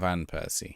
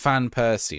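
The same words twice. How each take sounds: First: The first word starts with a V sound. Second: The first word starts with an F sound. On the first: The speaker calls it wrong. "not Van Persie" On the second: The speaker calls it right. "pronunciation of Van is fan"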